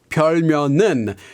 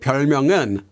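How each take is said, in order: First: The syllable 명 ends with an N sound. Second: The syllable 명 ends with an NG sound. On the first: The speaker calls it wrong. "she pronounces it more like 별명은. So with an N sound instead of that N G sound" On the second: The speaker calls it right. "What she's trying to say here is"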